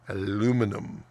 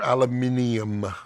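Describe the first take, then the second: First: It is said the American way, with four syllables. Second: It is said the British way, with five syllables. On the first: The speaker calls it right. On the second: The speaker calls it wrong.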